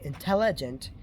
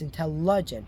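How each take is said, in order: First: Every vowel is pronounced fully, as spelled. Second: An unstressed vowel is reduced to schwa. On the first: The speaker calls it wrong. "by how it's spelled, you'd think it would be intelligent, but it's not" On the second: The speaker calls it right. "It's intelligent because it's easier for us to say"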